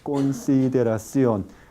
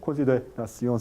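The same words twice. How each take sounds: First: The unstressed syllables keep their full length. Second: The unstressed syllables are shortened and weakened. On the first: The speaker calls it right. "sino consideración" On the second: The speaker calls it wrong. "Aunque son sílabas átonas, no se reduce, no se dice consideración"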